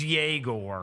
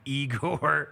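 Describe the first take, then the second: First: The name begins with a 'yeh' sound. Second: The name begins with an 'ee' sound. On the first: The speaker calls it right. "He's Yegor" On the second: The speaker calls it wrong. "he is not Igor"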